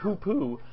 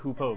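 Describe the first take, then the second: First: The word ends with a 'poo' sound. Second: The word ends with a 'poe' sound. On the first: The speaker calls it right. "but it's pronounced hoopoo" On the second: The speaker calls it wrong. "It looks like hoopoe"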